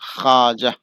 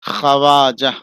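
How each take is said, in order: First: No w sound follows the kh. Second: A w sound follows the kh. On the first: The speaker calls it right. "पढ़ाएगा" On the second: The speaker calls it wrong. "ये वाव लिखा हुआ है"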